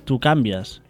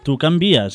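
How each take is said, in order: First: The stress falls on the syllable 'can'. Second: The stress falls on the syllable 'vi'. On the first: The speaker calls it wrong. "i no pas tu canvies" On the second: The speaker calls it right.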